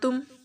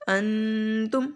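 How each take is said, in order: First: The n is only partly voiced, nearly hidden. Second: The n is held as a full nasal sound. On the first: The speaker calls it right. "पूरी तरह से नून की आवाज़ को अदा नहीं करना" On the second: The speaker calls it wrong. "अगर गुन्ना करते हैं तो नाक में मांस लेकर जाते हैं"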